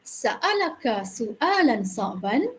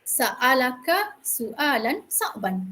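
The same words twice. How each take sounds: First: Sa'alaka su'alan sa'ban said slowly as a question, rising at the end; question tune. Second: Sa'alaka su'alan sa'ban said slowly as a statement, falling at the end; statement tune. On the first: Teacher demonstrating the other punctuation version to students, slow rising question. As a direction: ask it, lifting sa'ban upward. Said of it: "Nada dah tukar kan?". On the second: Teacher demonstrating the full-stop version to students, slow falling statement. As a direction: read it as a plain statement, letting sa'ban drop. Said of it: "Titik, ah". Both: Shown as a demonstration.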